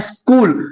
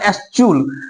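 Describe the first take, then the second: First: The word is said with a 'k' sound. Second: The word is said with a 'ch' sound. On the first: The speaker calls it right. "यहाँ पे एच silent है" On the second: The speaker calls it wrong. "अगर एच silent नहीं होता तो क्या निकलता"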